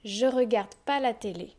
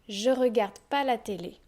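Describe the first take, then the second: First: The ne is left out completely. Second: The ne is left out completely.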